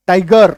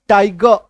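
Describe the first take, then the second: First: टाइगर with the final R clearly sounded; everyday pronunciation, full R. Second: टाइगर ending in an open "guh", no R; टाइगर said like "tai-guh"; actual pronunciation, silent R. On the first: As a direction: finish टाइगर on a hard R. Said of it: "हम लोग normally बोलचाल में बोलते हैं". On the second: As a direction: drop the final R of टाइगर. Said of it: "actual उच्चारण". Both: Shown as a demonstration.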